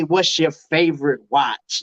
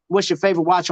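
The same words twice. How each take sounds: First: "What's your favorite watch?" said slowly and lower, each word drawn out; slow deliberate question. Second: Said in the usual way. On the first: Shown as a demonstration. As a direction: ask it slowly, weighing every word. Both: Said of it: "how can you say".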